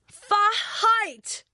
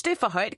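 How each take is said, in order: First: High, outraged storybook shriek; indignant scream. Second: Said in the usual way. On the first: A narrator's reading. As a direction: shriek it in offended disbelief. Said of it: "skriger Rita". (forarget skrig) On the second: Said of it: "Boris smiler".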